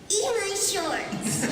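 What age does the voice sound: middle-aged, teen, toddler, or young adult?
toddler. It sounds like a very young toddler. "two-year-old Bart saying"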